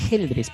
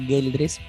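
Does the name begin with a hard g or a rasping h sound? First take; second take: rasping h; hard g. First: The name begins with a rasping h sound. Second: The name begins with a hard g sound. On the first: The speaker calls it right. "en realidad la pronunciación es Geldres porque no hay U entre la G y la E" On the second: The speaker calls it wrong. "muchas personas me dicen"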